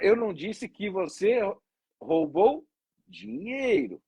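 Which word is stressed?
dinheiro. The stress is on "dinheiro".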